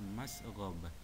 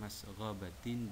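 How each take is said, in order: First: The word ends with an -h sound. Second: The word ends with a -tin sound. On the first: The reading stops at this word. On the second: The reading continues past this word.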